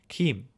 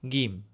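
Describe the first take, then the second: First: The word begins with a K sound. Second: The word begins with a hard G sound. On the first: This is the Western Armenian pronunciation. "And then Western, it's Kim" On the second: This is the Eastern Armenian pronunciation. "Gim, with a hard G sound as opposed to a J sound"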